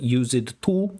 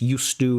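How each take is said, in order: First: The words are split into separate parts. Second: The words are run together smoothly. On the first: The speaker calls it wrong. "It wasn't like" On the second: The speaker calls it right. "and you connected it"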